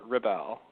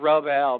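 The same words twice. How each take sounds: First: The stress is on the second syllable. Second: The stress is on the first syllable. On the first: The speaker calls it right. "but more Rebel ... Accent on the bell" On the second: The speaker calls it wrong. "Not not Rebel"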